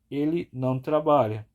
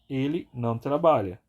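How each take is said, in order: Both takes have the same delivery.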